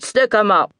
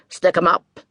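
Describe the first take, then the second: First: Higher, louder shouted command; cop's shout repeated. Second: Loud barked police order; cop's shout. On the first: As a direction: bellow it again, harder, at the couple. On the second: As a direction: yell it like a cop drawing his gun. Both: Acted. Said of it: "the cop shouted".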